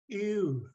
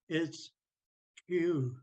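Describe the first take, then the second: First: The word is said on a high tone. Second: The word is said on a low tone. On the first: It means clam, door or trail. "this one is the clam or door trail thing" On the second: It means waiting for or in preparation of. "When we make it low tone"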